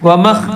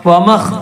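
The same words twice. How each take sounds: Both takes have the same delivery.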